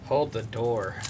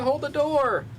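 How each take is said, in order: First: It is said in a heavy, serious tone. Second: It is said in a light, cheerful tone. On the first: The phrase now carries painful weight. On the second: The phrase is just a casual joke.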